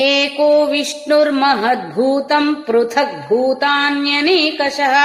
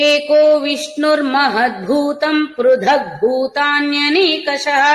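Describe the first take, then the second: Both takes have the same delivery.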